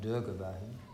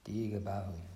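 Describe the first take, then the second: First: The first vowel is a short i sound. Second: The first vowel is a long ee sound. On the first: The speaker calls it wrong. "It's not Dirghabahu" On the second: The speaker calls it right. "it's an E sound"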